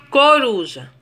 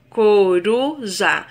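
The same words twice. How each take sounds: First: Said in the usual way. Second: "coruja" split slowly into co, ru, ja; syllable by syllable. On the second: Shown as a demonstration. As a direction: pause after each syllable of "coruja". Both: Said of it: "Também existem três sílabas".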